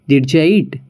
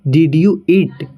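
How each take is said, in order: First: Did you is blended into one word, didja. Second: Did and you are said as separate words. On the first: "native तरीके से हम बोलेंगे" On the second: "जैसे"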